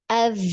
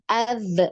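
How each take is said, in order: First: The final z flows steadily without a bounce. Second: The final z ends with a slight bounce. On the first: The speaker calls it right. "biarkan posisinya dia terus nempel ketika di dialirkan" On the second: The speaker calls it wrong. "kalau ditarik itu biasanya ada pantulan"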